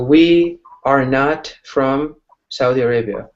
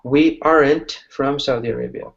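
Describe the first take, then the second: First: The words 'are not' are said in full. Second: The words 'are not' are contracted to 'aren't'.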